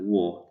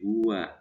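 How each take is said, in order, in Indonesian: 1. Suku kata kedua terdengar seperti wo. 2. Suku kata kedua terdengar seperti wa. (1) "Itu bukan"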